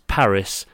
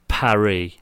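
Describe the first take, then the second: First: It is said the English way, final s sounded. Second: It is said the French way, final s silent.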